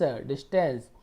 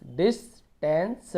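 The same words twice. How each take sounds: First: Said in the usual way. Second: distance split slowly as "dis - tens"; slow two-part sounding-out of distance; broken into parts. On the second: Shown as a demonstration. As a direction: pause inside distance after "dis". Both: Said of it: "ऐसे तोड़ तोड़ के पढ़ना है".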